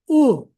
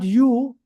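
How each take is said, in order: First: It is said with its Sindhi sound. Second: It is said like the English letter name. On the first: The speaker calls it right. "it is U" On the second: The speaker calls it wrong. "U is not U"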